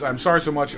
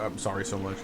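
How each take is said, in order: First: Said in the usual way. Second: Quieter muttered take of the same words; a self-conscious low repeat; mumbled repeat. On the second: Shown as a demonstration. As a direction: say it again under your breath, much softer. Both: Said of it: "it sounds weird when I say it that way".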